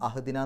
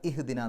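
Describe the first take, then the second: First: The word begins with an 'a' vowel. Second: The word begins with an 'i' vowel. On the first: The speaker calls it wrong. "അഹ്ദിന എന്ന് പറയില്ല" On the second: The speaker calls it right. "ഇഹ്ദിന എന്നാണ് പറയാം"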